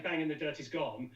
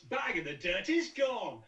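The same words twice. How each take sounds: First: The word 'is' is not emphasized. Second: The word 'is' carries strong emphasis. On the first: It sounds like an ordinary actor's read. "where an actor would say" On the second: It sounds unusual, not like an actor. "that kind of em- emphasis on the is"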